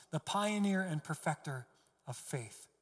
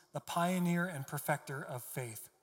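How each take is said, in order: The two takes are said the same way.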